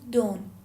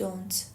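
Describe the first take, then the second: First: The final t sound is dropped. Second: The final t sound is clearly pronounced. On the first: "تی تلفظ نمیشه ... خانمه گفت don't" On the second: "نگفت don't"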